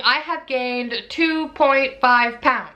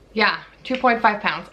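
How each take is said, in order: First: Slow, drawn-out reveal of the number; slow announcement. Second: Said in the usual way. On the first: Real, not acted. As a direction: stretch out two point five pounds. Announcing weight gain.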